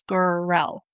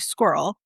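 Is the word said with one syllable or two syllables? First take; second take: two syllables; one syllable. First: The word is said with two syllables. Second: The word is squeezed into one syllable. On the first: This is how dictionaries say it should be said. The speaker calls it right. "supposed to be pronounced squirrel, which would be two syllables" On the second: This is how people usually say it. The speaker calls it wrong. "if we tend to say squirrel"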